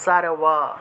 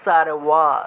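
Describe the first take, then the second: First: It is said with a 'w' sound, lips apart. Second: It is said with a 'w' sound, lips apart.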